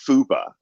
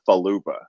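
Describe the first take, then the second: First: The word is said with two syllables. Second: The word is said with three syllables. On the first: The speaker calls it right. "the word as I understand it is fupa" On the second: The speaker calls it wrong. "not falupa"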